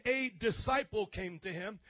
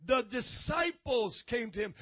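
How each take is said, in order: First: "a" stressed as a full "ay", singular. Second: "The disciples" set out firmly as plural; stress on DISCIPLES. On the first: Preacher corrects a misreading of scripture, stress on "a". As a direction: lean on "a" to show it is only one. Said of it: "it doesn't say that". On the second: Preacher gives the correct scripture wording, stress on "The disciples". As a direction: punch "The disciples" against the singular. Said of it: "No, he said". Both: Shown as a demonstration.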